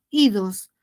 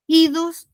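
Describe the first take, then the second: First: "idos" dropped lower with a falling close; rhyme sound shown. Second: "Idos" lifted higher with a rising end; rhyme sound shown. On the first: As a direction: repeat "idos" lower, settling it down. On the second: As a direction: point out the ending "Idos" on a rising, raised tone. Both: Shown as a demonstration. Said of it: "miran los oídos".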